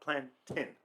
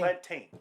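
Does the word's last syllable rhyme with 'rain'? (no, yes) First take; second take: no; yes. First: The last syllable does not rhyme with 'rain'. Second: The last syllable rhymes with 'rain'. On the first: The speaker calls it wrong. "not plantain" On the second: The speaker calls it right. "Put a T instead. Tane"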